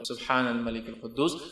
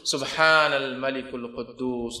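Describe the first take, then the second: First: The last word is said short. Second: The last word is drawn out long.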